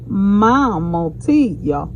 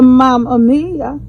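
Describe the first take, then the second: First: "Mama Tia" drawn out slowly. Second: "Mama Mia" said the usual Italian way; plain "Mama Mia" at an easy pace. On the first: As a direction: say "Mama Tia" slowly, each syllable clear. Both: Shown as a demonstration. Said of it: "we say Mama Tia".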